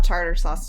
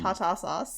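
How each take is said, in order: First: The R sounds in tartar are pronounced. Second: The R sounds in tartar are dropped.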